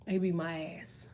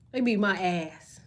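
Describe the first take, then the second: First: Softer, trailing repeat of the punchline; quiet echo. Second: Drawn out, each word slowed for effect; slow punchline. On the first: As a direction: murmur it again as an afterthought. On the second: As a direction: drag the punchline out deliberately. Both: Retold or imitated.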